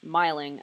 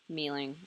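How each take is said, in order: First: The first vowel is not an ee sound. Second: The first vowel is an ee sound. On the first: The speaker calls it wrong. "I don't even know how to pronounce this" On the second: The speaker calls it right. "I feel like it's mealing or something. That sounds better"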